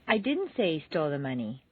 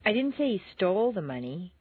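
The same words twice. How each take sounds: First: The stress is on the word didn't. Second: The stress is on the word stole.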